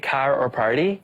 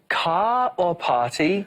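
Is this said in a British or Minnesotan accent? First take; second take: Minnesotan; British. First: It is said in a Minnesotan accent. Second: It is said in a British accent.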